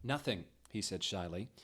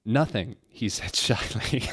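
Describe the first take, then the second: First: Recovering and reading quietly; composed retry, much softer. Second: Reading through giggles; can't keep it together mid-line; breaking into laughter. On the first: Reader retries the line after laughing, softer. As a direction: try it again, gently. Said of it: "Oh, cat". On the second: Reader cracks up reading the shy reply, laughing. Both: Real, not acted.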